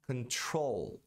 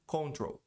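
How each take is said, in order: First: Control com primeira sílaba fraca e N claro; pronúncia correta. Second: Control com "con" cheio e nasal; pronúncia errada. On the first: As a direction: apoie control na segunda sílaba. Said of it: "Control e não control". (control com N bem pronunciado) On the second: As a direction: diga control à brasileira, sem tocar o N. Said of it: "como muita gente fala". (control com N engolido) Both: Shown as a demonstration.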